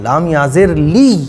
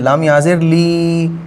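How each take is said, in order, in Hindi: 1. अंतिम ध्वनि दबाकर और दोहराकर बोली जाती है। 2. अंतिम स्वर लंबा खींचा जाता है। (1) "तो जब या के ऊपर तजदीद लगी हो तो हम जमा के पढ़ते हैं" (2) "और ये जज़म लगी होती तो हम इसको फिर खींच के पढ़ेंगे"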